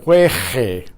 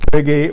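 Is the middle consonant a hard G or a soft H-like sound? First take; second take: soft H; hard G. First: The middle consonant is a soft, breathy H-like sound. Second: The middle consonant is a hard G sound. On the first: The speaker calls it wrong. "we would be spelling the sound of jueje" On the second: The speaker calls it right. "silent U comes in to preserve the hard G sound"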